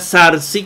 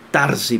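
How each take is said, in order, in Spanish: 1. La palabra empieza con un sonido th. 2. La palabra empieza con un sonido t. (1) "Algunos lo hacen con Z, como es el moderno, la pronunciación moderna" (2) "pero a mí me gusta Tarsi"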